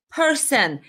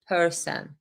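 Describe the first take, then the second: First: "person" lifted higher and hit hard; stress on person. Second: Said in the usual way. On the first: Shown as a demonstration. Quoting the senator to viewers, pointed stress on "person". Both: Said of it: "Emphasis on the word person".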